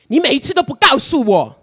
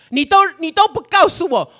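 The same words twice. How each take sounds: First: Accusing God. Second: Much higher, louder reproach, 都 stressed; shrill accusation. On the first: Retells complaining to God. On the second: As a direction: hurl 你都不告诉我 at God, higher still. Retells complaint, pitch peaks. (向神高声抱怨，重读“都”) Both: Retold or imitated.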